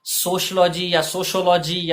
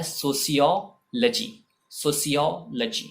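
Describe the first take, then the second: First: "सोशियोलॉजी" as sosh-law-jee, then so-sho-law-jee; सोशियोलॉजी slurred to sosh-law-jee, so-sho-law-jee; incorrect pronunciation. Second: "सोशियोलॉजी" as so-see-yo, luh-jee; सोशियोलॉजी slowly as so-see-o-luh-jee; correct pronunciation. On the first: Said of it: "pronunciation इसका incorrect होता है". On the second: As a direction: pause before "luh-jee", keep the s in "सोशियोलॉजी". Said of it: "तो ये होता है". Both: Shown as a demonstration.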